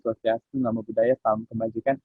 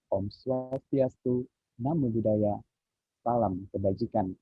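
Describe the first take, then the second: First: It is said in a flat, monotone way. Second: It is said with varied, falling intonation.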